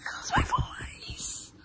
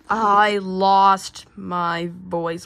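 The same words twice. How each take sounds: First: Slow, straining whisper, soft and toneless; lost voice. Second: Very slow, word by word; slow deciphering. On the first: Repeating himself for Blue Bear, lost voice. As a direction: stretch it out with your voice gone. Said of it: "I want you to speak clearly". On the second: Blue Bear working out Nightmare's message, slow deciphering. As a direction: spell it out slowly, stretching each word. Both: Acted.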